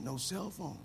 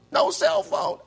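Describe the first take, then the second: First: Quiet flat repeat. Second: Breathless shocked yelp; hyperventilating. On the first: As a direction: say it softly, deflated. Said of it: "Say, say that again". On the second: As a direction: gasp it out in fake panic. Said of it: "I'm, I'm hyperventilating". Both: Pretend.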